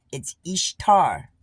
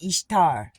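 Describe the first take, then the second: First: Ishtar said slowly, EESH-tar with a strong t; pronouncing Ishtar. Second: Ishtar repeated loud as EESH-tar; pronouncing Ishtar. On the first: To her viewers, insisting Easter is really Ishtar. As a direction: spell out Ishtar as EESH-tar, punched and loud. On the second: To her viewers, repeating how Ishtar is pronounced. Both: Shown as a demonstration. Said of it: "That's how it's pronounced".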